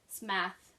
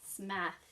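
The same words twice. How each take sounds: First: Smath said with a clear flat a; Smath, not Smith. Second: Smath said again, flat a like math; Smath, rhyming with path, confirmed; Smath repeated. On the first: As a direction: stress the a in Smath, like math. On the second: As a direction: settle the name Smath calmly. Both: Shown as a demonstration. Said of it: "not Smith".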